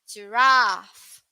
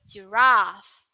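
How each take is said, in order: No difference in how they are said.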